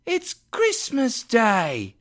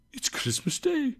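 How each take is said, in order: First: Put-on high, drawn-out boy's call. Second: Soft, high, wondering murmur; to himself. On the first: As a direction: call it up slowly as an incredulous street boy. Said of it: "replied the boy". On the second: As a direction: say it softly to yourself in wonder. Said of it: "said Scrooge to himself". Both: A narrator's reading.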